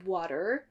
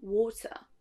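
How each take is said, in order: First: American "water", first vowel open like "ah"; American accent. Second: British "water", first vowel rounded like "aw"; British accent. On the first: Teacher contrasting the first syllable, American accent on "water". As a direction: say "water" American, wah-der with final R. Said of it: "la première syllabe". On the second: Teacher contrasting the first syllable, British accent on "water". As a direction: say "water" British, waw-tuh. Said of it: "une différence dans la première syllabe". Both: Shown as a demonstration.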